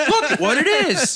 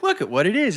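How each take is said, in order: First: Cracking up while mimicking his catchphrase; giggling parody of the host's awkward line; laughing imitation. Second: Light mock of an awkward host line; lightly voiced kids' show host; imitating a kids' YouTuber. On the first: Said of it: "what a weird way to say that". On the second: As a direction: quote him with a hint of his odd phrasing. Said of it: "He's always saying".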